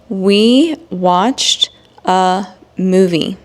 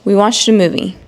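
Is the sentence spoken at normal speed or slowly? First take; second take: slow; normal. First: It is spoken slowly and carefully. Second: It is spoken at a normal pace. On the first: "read these examples in slow English" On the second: "then I will read it in normal speed"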